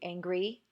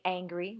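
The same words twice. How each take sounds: First: The stress is on the second syllable. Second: The stress is on the first syllable. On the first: The speaker calls it wrong. "We don't say are you angry?" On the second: The speaker calls it right. "we say angry"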